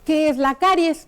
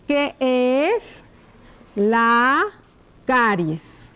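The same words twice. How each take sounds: First: Said in the usual way. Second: Word by word, long pauses between; slow dictation. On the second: Shown as a demonstration. Teacher writing a question on the board, slow dictation. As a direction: stretch each word out as you write it.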